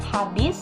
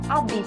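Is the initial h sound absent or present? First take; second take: present; absent. First: The word starts with an h sound. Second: The word starts without an h sound. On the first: The speaker calls it right. "lafal baku" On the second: The speaker calls it wrong. "dan bukan"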